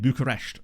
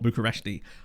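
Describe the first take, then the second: First: The name ends without an extra ee sound. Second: The name ends with an extra ee sound. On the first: The speaker calls it right. "it's Rapid Bucharest" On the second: The speaker calls it wrong. "not Bucharesti"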